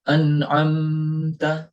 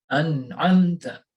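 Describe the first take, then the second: First: The m is held for a while. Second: The m is short and not held. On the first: The speaker calls it wrong. "Kita tidak mengucapkannya an'amta. Nah, di sini kurang tepat" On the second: The speaker calls it right. "Tetapi an'amta"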